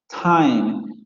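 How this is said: The t has a strong puff of air. This is how most English varieties say it. "estas consonantes se aspiran en ... prácticamente todas las variantes del inglés"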